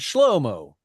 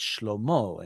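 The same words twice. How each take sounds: First: The stress is on the first syllable. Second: The stress is on the last syllable. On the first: This is the modern Israeli name form. "tons of people in Israel named Shlomo" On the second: This is the biblical form. "in the Bible it's Shlomo"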